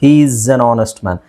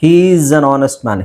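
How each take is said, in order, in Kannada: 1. ಪದಗಳು ಒಂದೇ ಸರಣಿಯಾಗಿ ಒಟ್ಟಿಗೆ ಸೇರಿ ಹರಿಯುತ್ತವೆ. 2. ಪದಗಳು ಒಂದೇ ಸರಣಿಯಾಗಿ ಒಟ್ಟಿಗೆ ಸೇರಿ ಹರಿಯುತ್ತವೆ.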